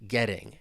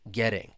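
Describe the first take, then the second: First: The T is a quick flap; the ending is -ing. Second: The same.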